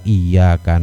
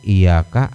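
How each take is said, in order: First: The y sound is held long and doubled. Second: The y sound is short, not doubled. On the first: Only to you, God. The speaker calls it right. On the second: Only to you, sun. The speaker calls it wrong.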